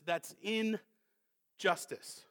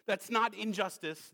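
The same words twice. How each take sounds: First: "injustice" split slowly into "in ... justice"; two separate words. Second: Said in the usual way. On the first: Shown as a demonstration. Preacher clarifying the verse, "injustice" parted as "in, justice". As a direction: pause after the "in" of "injustice", then say "justice".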